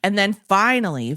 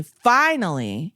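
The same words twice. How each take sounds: First: Said in the usual way. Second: "finally" stretched out slowly, each syllable drawn; slow stressed finally. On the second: Shown as a demonstration. Teller drawing out "finally" slowly in exasperation. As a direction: drag out "finally" with relief.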